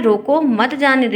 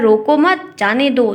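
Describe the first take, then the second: First: "रोको", short break, then "मत जाने दो" together; pause after रोको. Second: Comma break right after मत; pause after मत. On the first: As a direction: comma pause between "रोको" and "मत". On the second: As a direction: run रोको into मत, pause, then "जाने दो". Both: Shown as a demonstration. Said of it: "दोनों का अर्थ सिर्फ कॉमा से ही बदल".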